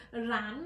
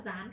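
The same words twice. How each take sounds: First: Rán with a strong, drawn-out R sound at the start. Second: Dán opening on a soft z-like sound. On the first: Teacher contrasting two words for students, R sounded clearly. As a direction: stress the R that opens rán. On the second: Teacher contrasting two words for students, z sound. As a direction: say dán as zán, without any R. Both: Shown as a demonstration. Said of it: "rán và dán khác nhau mà".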